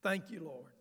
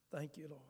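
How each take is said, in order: First: Said in the usual way. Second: Much softer, fading prayer; hushed echo of thanks; soft murmured thanks. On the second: Real, not acted. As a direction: breathe it out to God privately. Prayerful aside repeated twice.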